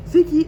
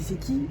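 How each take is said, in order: First: Higher, louder retold demand; baffled outcry. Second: Puzzled question. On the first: Retelling a call from an unknown voice, baffled outcry. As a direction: raise pitch and volume in disbelief. Retelling his escalating phone reaction. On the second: Retold or imitated. Retelling a confusing phone call, puzzled and quiet. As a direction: ask it under your voice, puzzled.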